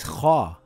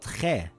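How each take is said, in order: First: The syllable is full and deep, mouth full. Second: The syllable is thin and light, mouth open. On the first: The speaker calls it right. "it is kha" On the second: The speaker calls it wrong. "and not khe"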